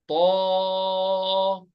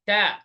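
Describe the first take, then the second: First: The first consonant is heavy and deep. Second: The first consonant is light and thin. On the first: The speaker calls it right. "طا, not تا" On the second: The speaker calls it wrong. "not تا"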